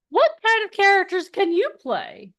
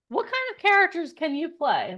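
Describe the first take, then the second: First: High, loud eager question to the crowd; excited question. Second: Said in the usual way. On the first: Real, not acted. Host asking the audience, excited and high. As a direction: ask it with big energy.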